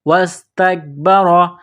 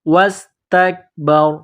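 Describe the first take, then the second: First: The word ends with a full 'ra' syllable. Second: The word ends on a bare 'r' sound. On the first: The reading continues without stopping. "रॉ के ऊपर जबर है तो रॉ को मोटा करना है" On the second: The reader stops at this word. "जब यहाँ स्टॉप करेंगे तो रॉ को साइलेंट करेंगे"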